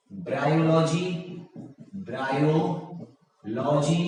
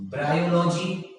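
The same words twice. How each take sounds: First: bryology slowly, with a gap before logy; drawn out. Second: Said in the usual way. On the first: Shown as a demonstration. Teacher repeating an option for the class, drawn out. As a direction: split bryology into two slow parts.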